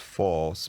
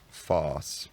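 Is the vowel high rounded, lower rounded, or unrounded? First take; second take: lower rounded; unrounded. First: The vowel is a lower rounded vowel. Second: The vowel is low and unrounded. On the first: This is the hypothetical shifted pronunciation. "The force vowel lowers" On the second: This is the further shifted pronunciation. "it unrounds"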